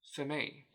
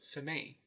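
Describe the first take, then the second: First: The vowels are reduced to schwa. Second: The same.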